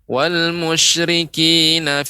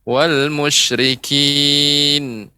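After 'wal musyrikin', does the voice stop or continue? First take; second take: continue; stop. First: The voice runs on into the next words. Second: The voice stops after the word. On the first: The recitation resumes from a little earlier. "Kemudian ulang kembali sedikit" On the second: The reciter has run out of breath. "bisa berhenti di situ"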